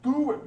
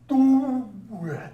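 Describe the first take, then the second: First: It is said at normal speed. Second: It is said very slowly, in slow motion.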